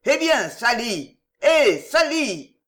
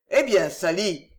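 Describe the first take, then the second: First: Higher, louder and slow, drawn-out shouts of Sally; noisy impatient calls. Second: Joyful call. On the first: Drinkers in the tap room calling loudly for Sally. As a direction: bellow for the barmaid impatiently. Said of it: "les bruyants appels". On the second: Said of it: "cria ... une voix joyeuse". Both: Acted.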